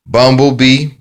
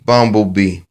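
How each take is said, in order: First: Bumblebee called out higher and louder, rising; called-out keyword. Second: Said in the usual way. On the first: Shown as a demonstration. Teacher showing the phonics card, Bumblebee called out loud and high. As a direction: announce the card word Bumblebee loudly and high. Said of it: "phonics card keyword drill". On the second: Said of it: "repeat of card keyword".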